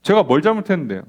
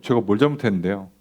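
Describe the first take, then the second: First: "제가" stressed in a pushy comeback; defiant retort. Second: Low, sulky "제가" as a pushback; defensive retort. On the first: Person talking back to a critic, defiant. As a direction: snap back with a falling "제가". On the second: Israelites talking back to God, sullenly defensive. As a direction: mutter back defensively, 제가 leaned on. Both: Retold or imitated. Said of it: "우리는 뭐라고 한다고요?".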